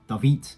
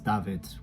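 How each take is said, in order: First: The name is said in a garbled approximation. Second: The name is said with Dutch pronunciation. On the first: The speaker calls it wrong. "they say something like David, and I I don't vibe with that" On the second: The speaker calls it right. "which is the Dutch pronunciation of the name David"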